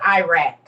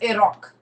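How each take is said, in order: First: Iraq is said with the usual American pronunciation. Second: Iraq is said with the local Middle Eastern pronunciation. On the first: This is how people here say it. "We call it Iraq" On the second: This is how people there say it. "over there it's Iraq"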